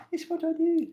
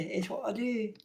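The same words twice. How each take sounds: First: Squeaky high falsetto. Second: Pitched up, soft; higher voice. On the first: Joking around with friends, a squeaky falsetto. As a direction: jump way up into falsetto. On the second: Joking around with friends, pitched up and soft. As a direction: lift it and keep it soft. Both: Shown as a demonstration. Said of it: "repeated higher".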